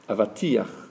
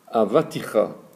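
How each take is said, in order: First: The vowel comes before the final ch sound. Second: The vowel comes after the final ch sound. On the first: The speaker calls it right. "il faut remettre la voyelle avant la lettre" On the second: The speaker calls it wrong. "théoriquement, tu as bien prononcé avaticha"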